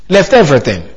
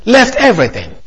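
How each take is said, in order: First: Said in the usual way. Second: "left everything" lifted high, stress on left; "left everything" set apart, pitched up on left; emphasized. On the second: Shown as a demonstration. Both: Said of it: "emphasize that expression".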